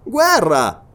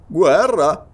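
First: GUERRA exclaimed high and loud, then falling; emphatic falling "Guerra"; exclaimed announcement. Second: GUERRA as a question, dipping then turning up; incredulous questioning "Guerra"; questioning echo. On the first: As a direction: announce "Guerra" firmly, dropping at the end. Sergeant announces war. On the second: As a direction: echo "Guerra" back, querying it. Listener echoes the news as question. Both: Acted.

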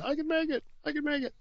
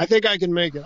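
First: Squeaky strained voice, much higher and softer; voice cracking high. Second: Said in the usual way. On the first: Pretend. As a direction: let the voice crack up into a thin squeak. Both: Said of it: "my voice is starting to give out".

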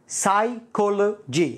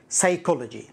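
First: "psychology" very slowly in separated parts, silent p; syllable by syllable. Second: Said in the usual way. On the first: Shown as a demonstration. Teacher breaking down "psychology" for learners, slow and split. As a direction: break "psychology" up as sai, colo, gy.

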